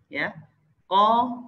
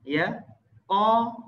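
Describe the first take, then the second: Both takes have the same delivery.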